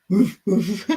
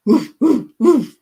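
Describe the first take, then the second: First: Lower-pitched big dog woofs; amateur old-dog bark. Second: Loud playful dog woofs; amateur dog imitation, loud; dog bark. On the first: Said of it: "That's a very old, big dog". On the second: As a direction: bark out short, punchy woofs. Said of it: "It's a dog". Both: Shown as a demonstration.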